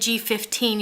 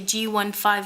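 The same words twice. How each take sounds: First: The number is read as one whole number. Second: The number is read as separate single digits. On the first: The speaker calls it wrong. "you wouldn't say G fifteen" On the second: The speaker calls it right. "because the individual numbers represent different qualities of the marker"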